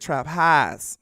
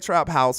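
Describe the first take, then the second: First: House has a flattened Southern 'ah' vowel. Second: House has a standard 'ow' vowel. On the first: "We say trap highs. That's how we do it up in the South" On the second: "We don't say trap house"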